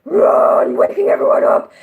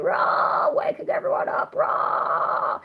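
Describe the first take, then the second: First: Full-voiced waking scream; loud scream. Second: Raspy whispered fry yell; fry scream. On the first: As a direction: shout it out loud. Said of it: "instead of me going". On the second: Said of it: "the more, like, Fry kind of thing". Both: Shown as a demonstration.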